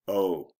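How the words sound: The 'oh' sounds disappointed. The speaker is let down by the news. "I'm disappointed"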